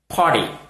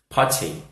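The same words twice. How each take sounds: First: It is said with an American accent. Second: It is said with a British accent.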